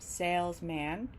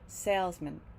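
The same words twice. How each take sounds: First: The final syllable has a full, unreduced vowel. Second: The final syllable is reduced, like mint. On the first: The speaker calls it wrong. "So it's not salesman" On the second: The speaker calls it right. "it gets reduced and it sounds more like mint"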